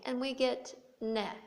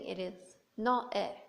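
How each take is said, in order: First: The two vowels are blended into one sound. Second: The two vowels are said as separate sounds. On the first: "we can modify the vowels in the same way" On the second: "this is an acceptable pronunciation"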